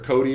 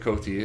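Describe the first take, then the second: First: The middle consonant sounds like a soft D. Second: The middle consonant is a clear T. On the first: "It's either Cody or Coty" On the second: "I say Coty. I pronounce the T"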